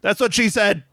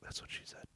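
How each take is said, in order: First: The phrase is said aloud, bigger and louder. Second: The phrase is whispered very quietly. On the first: "is that better? / Yeah, it's bigger" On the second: "I whispered it like really quiet"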